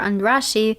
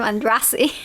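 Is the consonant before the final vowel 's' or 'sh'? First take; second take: sh; s. First: The consonant before the last vowel is 'sh'. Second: The consonant before the last vowel is 's'.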